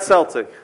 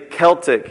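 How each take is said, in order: First: The word begins with an S sound. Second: The word begins with a K sound. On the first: This is the name of the basketball team. The speaker calls it wrong. "It's not Celtic, by the way. That's a basketball team in Boston" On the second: This is how it is said in Ireland. The speaker calls it right. "It's actually Celtic is how they pronounce it over there"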